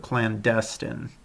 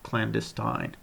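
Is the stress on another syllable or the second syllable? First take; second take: second; another. First: The stress is on the second syllable. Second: The stress is on another syllable. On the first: The speaker calls it right. "the stress in this one is on the second syllable" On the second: The speaker calls it wrong. "instead of"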